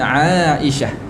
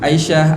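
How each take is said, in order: First: The first vowel is held long. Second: The first vowel is cut short. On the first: The speaker calls it right. "oh ain tu dua harakat pula sebenarnya" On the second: The speaker calls it wrong. "Sebab orang Melayu panggil begitu"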